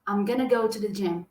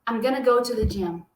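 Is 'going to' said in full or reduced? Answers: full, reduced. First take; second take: reduced; reduced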